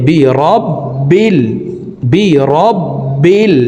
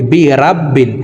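First: বি রব বিল with short clipped রব; correct reading. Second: বি রাব বিল with a long রা vowel; wrong reading. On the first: Teacher shows the correct short রব. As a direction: keep রব short, no long vowel. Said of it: "বলতে হবে এইভাবে". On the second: Teacher shows common mistake, long রা. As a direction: stretch রা wrongly. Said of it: "এইভাবে পড়ি". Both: Shown as a demonstration.

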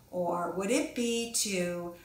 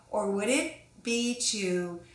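No difference in how they are said.

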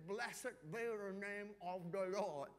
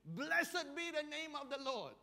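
First: Slow, mumbled as if through a swollen mouth; struggling to talk. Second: Louder, higher and slow, a proclaiming Job; solemn praise, declared aloud; Job praising God. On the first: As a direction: force the words out past the sores. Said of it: "very hard to talk". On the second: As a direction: ring it out like a faithful proclamation. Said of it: "he says". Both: Retold or imitated.

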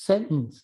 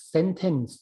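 First: "sentence" as sen'ence, T caught in the throat; swallowed T. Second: "sentence" with the middle T fully sounded; clear T. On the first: Imitating a Westerner met while studying, "sentence" with swallowed T. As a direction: say "sentence" without releasing the middle T. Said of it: "อึกอึกอยู่ในคอเนี่ยนะ แต่ไม่ออกเสียงเป็นตัว T". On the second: Imitating the Westerner repeating it for him, "sentence" with clear T. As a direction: pronounce "sentence" as sen-tence, releasing the T. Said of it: "พูดย้ำมาสองสามรอบ". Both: Retold or imitated.

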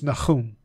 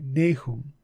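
First: "Nahum" said nah-KHOOM, throaty kh; Hebrew Nahum. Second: "Nahum" as NAY-hum; "Nahum" with a long A, stress on the first syllable; correct Nahum. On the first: Teacher giving the Hebrew sound of "Nahum". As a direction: Hebrew "Nahum" with a guttural middle. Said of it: "In Hebrew, it's". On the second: Teacher modelling the English "Nahum". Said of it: "that's how you say that". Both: Shown as a demonstration.

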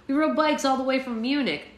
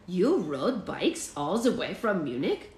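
First: Put-on mildly let-down, in the reader's own accent; a touch of disappointment, higher pitched; lightly acted complaint; dejected. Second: Put-on slow, swooping incredulous German boy; astonished child, pitch leaping up and down; mind blown. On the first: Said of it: "Connor said dejectedly". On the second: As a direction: stretch each phrase in amazement with a mock German accent. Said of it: "That completely blew Emmerich's mind". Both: A narrator's reading.

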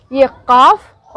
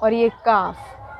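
First: "काफ" with the first sound made back in the throat; throaty q. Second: Said in the usual way. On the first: Shown as a demonstration. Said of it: "गला के साथ बोलना है". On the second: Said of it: "और इसको बोलते हैं काफ".

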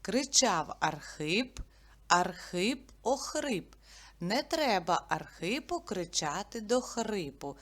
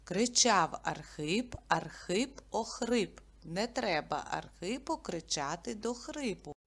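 First: Put-on teacher models a tongue twister for kids; tongue twister recital. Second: Teacher repeats the twister for memorising; tongue twister repeated. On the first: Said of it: "Давайте вивчимо скоромовку". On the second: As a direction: say it again, calm and even. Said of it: "Я ще раз повторю". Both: Shown as a demonstration.

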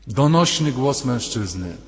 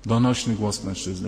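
First: Slow, resonant, declaimed "Donośny"; booming voice. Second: Said in the usual way. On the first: Shown as a demonstration. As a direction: boom out "Donośny głos" slowly. (donośnie, powoli, z mocą) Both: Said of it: "zawołał donośnym głosem".

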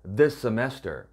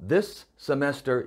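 First: This semester joined, one shared s sound; linked this semester. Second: This semester broken apart, both s sounds kept; choppy separated this semester. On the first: Teacher models linking for students, this semester as one s. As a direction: run this into semester with a single s. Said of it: "붙여서 발음하시면 됩니다". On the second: Teacher shows the wrong way to students, this semester chopped apart. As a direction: cut between this and semester, stiffly. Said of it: "끊어서 this semester 이렇게 발음하면은요". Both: Shown as a demonstration.

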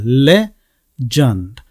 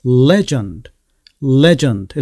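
First: "legend" slowly split, le... jund, with a firm L; syllable-by-syllable legend. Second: "legend" with LE stressed and no final vowel; stress on first syllable. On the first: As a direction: stretch "legend" into two separate beats. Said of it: "첫 번째 나오는 L". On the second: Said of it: "강세는 앞쪽에 있죠". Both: Shown as a demonstration.

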